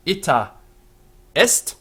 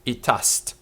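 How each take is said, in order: First: "ita est" as two separate words with a pause between; "ita ... est", carefully split; as written, unelided. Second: "itast" run together as one word; "itast", with the E of "est" dropped; elided vowel. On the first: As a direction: give "ita" its full final A, stop, then a high, loud "est". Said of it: "Notice we write". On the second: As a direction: merge "ita est" into two syllables, "i-TAST". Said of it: "but we actually say". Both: Shown as a demonstration.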